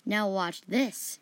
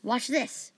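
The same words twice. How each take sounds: First: Slow, mildly triumphant lead-in; measured, understated triumph. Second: Higher, mildly cheerful lead-in; a touch of eager cheer. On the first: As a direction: draw it out with a touch of triumph. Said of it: "Jaheira said triumphantly". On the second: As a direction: say it with light cheer. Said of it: "Fan said cheerfully". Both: A narrator's reading.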